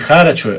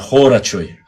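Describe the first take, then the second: First: The first vowel sounds like an open a. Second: The first vowel sounds like a rounded o. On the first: The speaker calls it wrong. "Правильно говорить не Харачой" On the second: The speaker calls it right. "а Хорачой"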